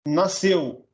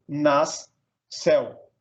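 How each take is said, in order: First: Said in the usual way. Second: "nas" and "céu" as two separate beats; split into syllables. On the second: Shown as a demonstration. Teacher dividing nasceu, "nas, céu" syllable by syllable. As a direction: say "nas", pause, then "céu". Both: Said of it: "separar um em cada sílaba".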